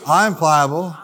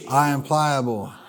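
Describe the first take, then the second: First: It is said warmly, with a smile. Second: It is said plainly, without a smile. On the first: "Say it with a smile" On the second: "Say it with me"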